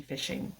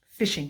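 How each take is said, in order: First: Fishing breathed almost silently as a whisper; soft whispered fishing; whispered echo. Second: Said in the usual way. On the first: Shown as a demonstration. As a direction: echo the word fishing under your breath. Repeating the word fishing.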